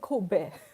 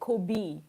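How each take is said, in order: First: It is said the Japanese way. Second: It is said the American English way. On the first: The speaker calls it right. "It's actually Kobe" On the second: The speaker calls it wrong. "I think Americans say Kobe"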